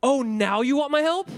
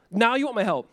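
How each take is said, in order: First: Mock-surprised rising "my help?", pitched up; 비꼬듯 "my help?" 끝을 올려 묻기; sarcastic question. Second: "Now you want my help." said as a dry falling statement; 끝을 내려 "Now you want my help." 단정하듯 비꼬기; flat sarcastic statement. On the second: Retold or imitated. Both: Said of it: "God is saying this".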